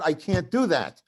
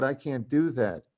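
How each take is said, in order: First: Retold protest, raised and a little louder; emphatic refusal. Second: Said in the usual way. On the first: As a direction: push back harder in a mock argument. Repeated refusal in retold fight.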